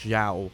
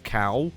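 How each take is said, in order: First: The name starts with a soft zh sound. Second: The name starts with a hard k sound. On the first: The speaker calls it right. "I believe it's Zhao" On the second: The speaker calls it wrong. "they were pronounced as cow, but that's not how you say it"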